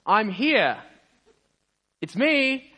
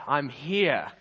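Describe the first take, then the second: First: Loud, high proud announcement; big, high-pitched triumphant shout. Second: Happy, pleased announcement, a little raised; mildly delighted to have arrived; cheerful but contained. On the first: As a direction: call it out to the whole street. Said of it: "he just says in a loud voice". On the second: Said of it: "he's looking super happy". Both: Acted.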